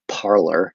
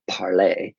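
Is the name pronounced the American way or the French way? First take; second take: American; French. First: It is pronounced the American English way. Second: It is pronounced the French way. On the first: This is how Americans commonly say it. The speaker calls it wrong. "Americans have butchered that and call it Parler" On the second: This is the official name. The speaker calls it right. "official name is French"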